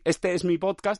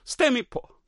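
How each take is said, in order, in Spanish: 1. La última palabra se dice completa. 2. La última palabra se corta a su primera sílaba. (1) "En vez de decir" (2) "dice, este es mi po"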